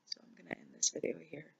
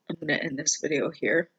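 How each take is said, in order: First: Much softer, fast, near-silent whisper; real tears, whisper the goodbye; tearful whisper. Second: Said in the usual way. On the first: Real, not acted. Ending her vlog to viewers in a tearful whisper.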